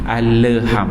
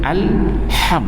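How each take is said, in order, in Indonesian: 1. Huruf L dilepas dengan sedikit memantul. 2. Huruf L langsung menyambung ke bunyi H. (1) "jangan alham" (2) "alham terus ambil ha terus"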